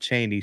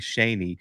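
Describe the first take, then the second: First: The name begins with a ch sound. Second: The name begins with a sh sound. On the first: The speaker calls it wrong. "not Cheney" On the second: The speaker calls it right. "Shaney is the way you pronounce it"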